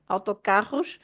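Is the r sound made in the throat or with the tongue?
throat. The r is made in the throat. This is how it is said in Lisbon. "in Lisbon, they pronounce the r with their throat"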